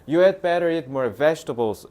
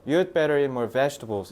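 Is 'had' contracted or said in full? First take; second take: full; contracted. First: The word 'had' is pronounced fully and separately. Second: The word 'had' is reduced onto 'you'. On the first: "라고 하겠지만" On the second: "원어민들은 You'd better, ... 이렇게 줄여서 얘기한다고요"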